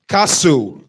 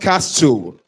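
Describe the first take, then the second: First: The T sound is left out. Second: The T sound is pronounced. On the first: The speaker calls it right. "So you say castle" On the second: The speaker calls it wrong. "not castle"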